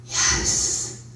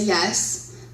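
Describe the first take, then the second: First: Eerie drawn-out whisper; ghost voice. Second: Said in the usual way. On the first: Retold or imitated. Guest speaker imitates a ghost caught on tape, long breathy whisper. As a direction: whisper it slowly, right into the microphone. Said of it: "a voice right in the microphone". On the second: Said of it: "you hear me say".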